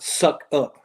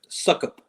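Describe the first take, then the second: First: The two syllables are said as separate parts. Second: The two syllables run together as one word. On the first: The speaker calls it wrong. "not suck up" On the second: The speaker calls it right. "Kind of run it all together"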